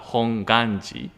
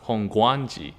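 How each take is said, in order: First: The middle syllable has no w sound: ga. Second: The middle syllable has a w sound: gwa. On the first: The speaker calls it right. "just a correct uh, pronunciation is that we call it uh, Honganji" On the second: The speaker calls it wrong. "because we having a W, it is cannot be helped pe- if people pronounce Hongguanji"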